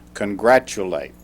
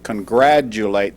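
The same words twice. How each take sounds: First: The middle consonant sounds like ch, as in church. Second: The middle consonant sounds like j, as in graduation. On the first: The speaker calls it right. "but it is congratulate. It has a C H sound" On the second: The speaker calls it wrong. "Some people sometimes mispronounce it congratulate, thinking it has something to do with graduation"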